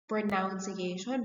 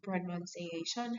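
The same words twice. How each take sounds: First: The second syllable sounds like 'noun'. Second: The second syllable sounds like 'nun'. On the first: The speaker calls it wrong. "you said the word pronunciation" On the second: The speaker calls it right. "next time it should be pronunciation"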